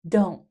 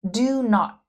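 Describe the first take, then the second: First: The words merge into one short syllable. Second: Two separate full words are said.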